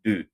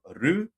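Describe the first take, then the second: First: The consonant falls between d and r. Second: The consonant is a clear r sound. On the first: The speaker calls it right. "but do" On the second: The speaker calls it wrong. "not ru"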